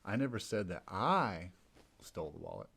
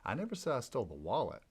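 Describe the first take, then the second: First: The stress is on the second "I". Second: The stress is on "wallet".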